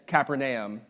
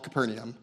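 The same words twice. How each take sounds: First: The name is said the Hebrew way. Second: The name is said the English way. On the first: This is how it is said in Israel. "is how you would say it in Hebrew" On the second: This is how it is said in the United States. "We live in the United States. So we're going to call it Capernaum"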